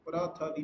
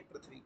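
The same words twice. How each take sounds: First: "प्रथवी" said as pa-ra-tha-vi, vowels between the consonants; colloquial pronunciation. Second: "पृथ्वी" said as prith-vi, consonants joined; standard pronunciation. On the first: Teacher repeating the wrong form, colloquial "प्रथवी" as pa-ra-tha-vi. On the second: Teacher repeating the correction, standard "पृथ्वी" as prith-vi. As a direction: keep "पृथ्वी" to two syllables, prith-vi. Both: Shown as a demonstration. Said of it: "प्रथवी नहीं पृथ्वी".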